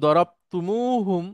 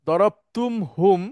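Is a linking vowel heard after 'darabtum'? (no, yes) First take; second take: yes; no. First: A u vowel is heard between tum and hum. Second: No vowel is heard between tum and hum. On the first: The speaker calls it right. "মিমের পরে একটা ওয়াও যুক্ত হয়ে যায়" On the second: The speaker calls it wrong. "একসাথে বলাটা একটু কঠিন"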